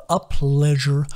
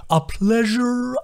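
First: Contented sing-song repeat; calmer echo. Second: Much higher, slow and delighted; slow delighted turtle voice; overjoyed sing-song. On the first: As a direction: let the joy settle. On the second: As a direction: gush with glee. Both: A narrator's reading.

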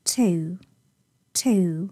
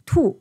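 First: "too" drawn out with fronted British oo; British pronunciation. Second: "too" like Mandarin tu; Chinese pronunciation. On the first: Teacher answering a learner, "too" the British way. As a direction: say "too" slowly, vowel gliding forward. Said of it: "英式发音是too". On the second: Teacher answering a learner, "too" the Chinese way. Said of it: "too是汉语的发音". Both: Shown as a demonstration.

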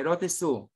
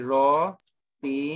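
First: Said in the usual way. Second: Roti-su slowly split into ro, ti, su; slow teaching take of roti-su; syllable by syllable. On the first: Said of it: "Madali lang yan". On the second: Shown as a demonstration. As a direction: sound out roti-su in separate, drawn-out pieces. Teacher sounds out term by syllable.

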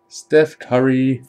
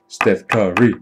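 First: Drawn-out name. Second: Said in the usual way. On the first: Real, not acted. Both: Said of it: "repeated name, varied".

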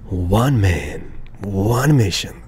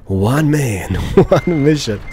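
First: Deep epic announcer narration; movie trailer voice. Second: Epic line cracking up; trailer voice breaking into laughter. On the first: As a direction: drop into a trailer voice. Dramatic self-narration while parking. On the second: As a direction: try the trailer voice but laugh through it. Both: Pretend.

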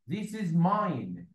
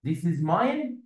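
First: Slow dictation. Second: Said in the usual way. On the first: Shown as a demonstration. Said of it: "يعني اقول لك ايه؟". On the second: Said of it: "انا ممكن اقول this is mine على طول".

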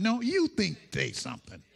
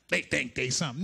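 First: No, you think they something, with "you" stressed, pointing back. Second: They think they something, with "they" stressed, pointing at others. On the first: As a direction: lean on "you". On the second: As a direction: lean on the first "they". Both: Shown as a demonstration.

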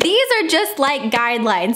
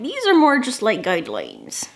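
First: Said in the usual way. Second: Hammed-up pirate accent; horrible pirate accent. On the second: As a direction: imitate a movie pirate's accent, badly. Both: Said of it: "That was a horrible accent".

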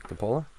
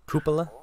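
First: "Cupola" said cuh-POH-luh, rising; questioned pronunciation. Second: "Cupola" said COO-puh-luh, pitched higher; alternative pronunciation. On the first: Trying a friend's word, "Cupola" as cuh-POH-luh. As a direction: ask "Cupola" with stress on a long middle O. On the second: Testing another way to say it, "Cupola" as COO-puh-luh. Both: Shown as a demonstration.

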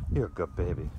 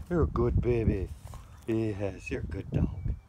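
First: Said in the usual way. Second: High loud doting praise for a pet. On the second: Real, not acted. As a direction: gush over the dog in a sing-song voice. Baby talk praising dog.

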